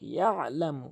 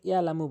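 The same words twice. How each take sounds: First: A pressed throat consonant is heard mid-word. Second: No throat consonant is heard mid-word. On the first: The speaker calls it right. "আইনের উচ্চারণ করতে হবে চাপ দিয়ে" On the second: The speaker calls it wrong. "আইনের উচ্চারণ বাদ দিয়ে ফেলে"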